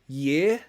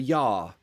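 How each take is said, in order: First: The word is said in a plain accent. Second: The word is said in a posh English accent. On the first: "I pronounce it year ... The same pronunciation as ear" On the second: "posh people ... pronounce it as year, a year, or a yar"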